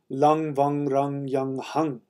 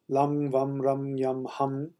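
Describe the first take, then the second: First: Each syllable ends in an ng sound. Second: Each syllable ends in a closed-lip m sound. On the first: "the actual pronunciation is" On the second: "with your lips closed, like an M"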